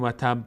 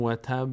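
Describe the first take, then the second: First: و تب with a weak ب and no echo; wrong take of و تب. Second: و تب with the final ب bouncing in place; right take of و تب. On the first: Teacher shows the wrong way to say the final ب, flat. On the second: Teacher shows the right qalqala on the final ب, crisp. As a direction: let the ب of و تب echo lightly in its spot. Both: Shown as a demonstration.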